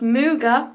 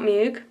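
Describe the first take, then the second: First: The name ends with a final vowel sound. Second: The name ends on a consonant sound. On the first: The speaker calls it right. "her last name is pronounced Muga" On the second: The speaker calls it wrong. "not Mug, because I said that wrong"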